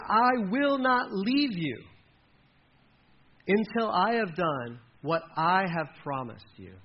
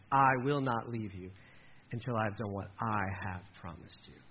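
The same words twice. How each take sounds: First: Every word slowed and weighted, louder and higher; slow solemn promise. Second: Quieter and lower, gentle and sincere; soft tender promise. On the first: Pastor reads God's promise to Jacob, slow and emphatic. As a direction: lean hard on I will not leave you. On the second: God softly promises Jacob he won't leave him. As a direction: let the promise land quietly. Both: Acted.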